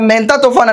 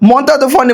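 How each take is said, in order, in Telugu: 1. మొదటి అచ్చు 'e' లా వినిపిస్తుంది. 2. మొదటి అచ్చు 'o' లా వినిపిస్తుంది.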